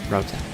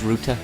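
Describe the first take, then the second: First: It is said the American English way. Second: It is said the British English way. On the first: "Americans ... they say router" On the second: "I guess it's router in England at least"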